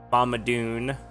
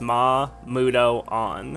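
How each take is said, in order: First: The name ends in a merged 'oon' sound. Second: The name ends in a separate 'on' syllable. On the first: The speaker calls it wrong. "everybody always pronounces those skills like" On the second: The speaker calls it right. "But no, it's Ma Mudo on"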